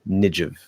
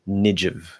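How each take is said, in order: No difference in how they are said.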